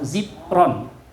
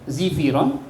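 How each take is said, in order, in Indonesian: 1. Tidak terdengar vokal di antara f dan r. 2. Terdengar vokal i di antara f dan r. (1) "dibacanya kasrah" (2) "kasrin aidon"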